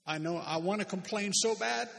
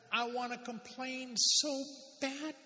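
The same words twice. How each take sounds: First: Said in the usual way. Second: High, slow whine on "I wanna complain so bad"; mock whining. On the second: Preacher playing the grumbler to the congregation, mock whine. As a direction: stretch it out like a sulky child.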